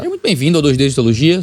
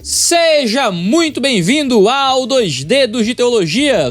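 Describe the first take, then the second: First: It is said calmly and quietly, with low energy. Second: It is said loudly and lively, with high energy. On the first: The speaker calls it wrong. "Como é que eu falaria com minha mãe" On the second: The speaker calls it right. "mais animado, mais alto"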